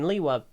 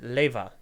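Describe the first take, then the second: First: The middle consonant is a w sound. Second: The middle consonant is a v sound. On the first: This is the name as it is meant. "they're saying Lewa" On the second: This is how Scandinavian speakers say it. "they pronounce it Leva"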